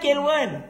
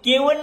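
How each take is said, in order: First: The word is said with the middle l sound. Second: The word is said without the middle l sound. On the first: The speaker calls it right. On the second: The speaker calls it wrong. "केवण ना"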